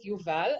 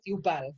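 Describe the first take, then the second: First: The name is said with Hebrew pronunciation. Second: The name is said with Argentinian Spanish pronunciation. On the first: The speaker calls it right. "you pronounce it" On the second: The speaker calls it wrong. "they pronounce it Yubal because they're stupid"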